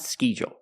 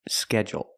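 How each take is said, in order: First: The first vowel is a long ee sound. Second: The first vowel is a short eh sound. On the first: The speaker calls it wrong. "not schedule" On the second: The speaker calls it right. "I have to use the short eh"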